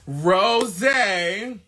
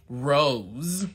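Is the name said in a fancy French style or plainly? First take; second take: fancy; plain. First: It is said in a fancy, French-sounding way. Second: It is said plainly, like the flower. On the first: "the bougie bitch in me wants to say Rosé" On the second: "I'm putting on Rose from Bath and Body Works"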